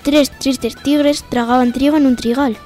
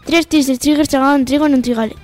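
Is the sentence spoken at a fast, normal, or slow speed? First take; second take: normal; fast. First: The sentence is spoken at a normal speed. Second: The sentence is spoken at a fast speed. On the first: "A cámara normal o velocidad normal" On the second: "Y a velocidad rápida"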